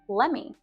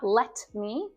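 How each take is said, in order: First: The T at the end of 'let' is dropped. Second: The T at the end of 'let' is pronounced. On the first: The speaker calls it right. "We drop that T at the end of want as well" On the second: The speaker calls it wrong. "So not let me"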